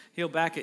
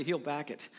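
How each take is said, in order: First: Louder, firm promise; emphatic repeat. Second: Said in the usual way. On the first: Real, not acted. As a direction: hit it harder the second time.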